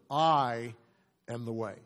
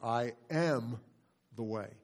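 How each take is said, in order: First: The stress falls on "I". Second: The stress falls on "am". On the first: "Now stress just the first word" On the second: "Second word"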